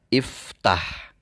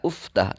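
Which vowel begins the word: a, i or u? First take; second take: i; u. First: The word begins with an i vowel. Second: The word begins with a u vowel. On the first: The speaker calls it right. "harus dibaca dengan harokat kasroh" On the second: The speaker calls it wrong. "tidak uftah"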